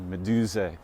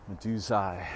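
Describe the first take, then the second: First: Said in the usual way. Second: "Medusai" ending like the word "eye"; Hillman's pronunciation. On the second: Shown as a demonstration. Lecturer showing Hillman's way of saying it, "Medusai" ending in "eye". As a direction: say "Medusai" with a final long-i sound. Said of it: "as Hillman pronounces it".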